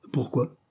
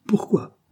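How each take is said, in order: First: Said in the usual way. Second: Much higher, indignant echo of the question; incredulous echo. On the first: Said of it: "demanda-t-il". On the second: A narrator's reading. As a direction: toss the word back in disbelief. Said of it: "répéta monsieur Ashley".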